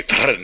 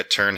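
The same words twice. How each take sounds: First: "Turn" split into three syllables, tuh-ruh-n; mimicked Scottish turn. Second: "turn" as a single American syllable; plain, unbroken "turn"; one-syllable turn. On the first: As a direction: mimic a Scot's rolled "Turn". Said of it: "it's got, like, three with you". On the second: Shown as a demonstration. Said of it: "turn has one syllable".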